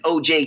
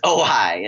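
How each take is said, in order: First: "O J" said as the two letters O and J, like the name; the caller spells the town out "O J" and gets it wrong; mispronounced as O J. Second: "Ojai" said as oh-hi, the right local way; the innkeeper corrects him with "Ojai" as oh-hi; correct local pronunciation. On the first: Newcomer calling the inn names the town wrong. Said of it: "O J's that guy we don't talk about". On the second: Innkeeper corrects the caller with the right pronunciation. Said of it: "This is Ojai". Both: Retold or imitated.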